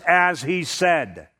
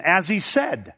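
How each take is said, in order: First: "as he said" slowly, each word weighted, stress on "as"; emphasis on the words. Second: Said in the usual way. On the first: Shown as a demonstration. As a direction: lean on "as he said", slow and deliberate. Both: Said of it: "the emphasis in that verse there is upon the words".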